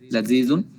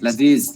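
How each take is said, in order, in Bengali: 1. শব্দটি শেষে '-un' ধ্বনি দিয়ে শেষ হয়। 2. শব্দটি শেষে '-un' ধ্বনি ছাড়া শেষ হয়।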